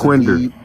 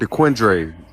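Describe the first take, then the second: First: It is said the way Detroit locals say it. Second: It is said the way outsiders say it. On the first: The speaker is from Detroit. The speaker calls it right. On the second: The speaker is not from Detroit. The speaker calls it wrong.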